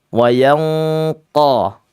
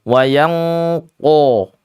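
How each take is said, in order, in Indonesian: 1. Huruf qaf diucapkan tanpa membulatkan bibir. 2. Huruf qaf diucapkan dengan bibir membulat.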